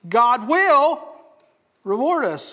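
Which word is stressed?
will. The stress is on "will".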